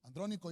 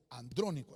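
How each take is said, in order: First: Said in the usual way. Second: "Andrónico" with the accent on DRÓ; "Andrónico", stressed on its second syllable, DRÓ; stress on first O. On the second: Shown as a demonstration. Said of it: "Andrónico lleva acento en la primera O".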